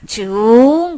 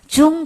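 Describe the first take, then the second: First: The pitch of the syllable curves upward. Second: The pitch of the syllable does not rise. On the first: It means again or repeated. "발음이 이렇게 휘어져서 올라가요" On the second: It means heavy. "무거울 중하대는 중"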